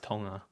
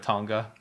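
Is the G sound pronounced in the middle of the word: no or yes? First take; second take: no; yes. First: The G is silent after the ng sound. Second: The G is pronounced after the ng sound. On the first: The speaker calls it right. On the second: The speaker calls it wrong.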